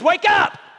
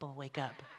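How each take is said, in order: First: It is said loudly and forcefully. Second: It is said gently and softly.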